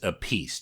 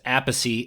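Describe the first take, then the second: First: The name ends in a single 'peace' syllable. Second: The name ends with an extra 'chee' syllable. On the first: This is how the guest says the family name. "yours is Apiece" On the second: This is how the brother says the family name. "his last name is [name]"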